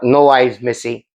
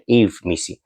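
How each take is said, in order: First: The first name sounds like 'no eyes'. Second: The first name sounds like 'Eve'. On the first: The speaker calls it wrong. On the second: The speaker calls it right. "I think that's that should, should be his pronunciation"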